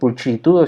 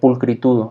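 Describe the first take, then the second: First: The middle consonant is a CH sound. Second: The middle consonant is a K sound. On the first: The speaker calls it wrong. "si uno lo quisiera eh, eh, este, decir como si fuera español" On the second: The speaker calls it right. "esa sería la pronunciación"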